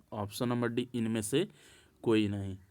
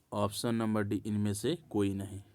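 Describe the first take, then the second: Both takes have the same delivery.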